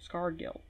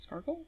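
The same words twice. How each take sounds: First: Said in the usual way. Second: Scargill asked back with a high questioning rise; Scargill, rising like a question; puzzled Scargill. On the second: Shown as a demonstration.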